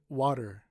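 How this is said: It is said in an American accent. "Americans say water"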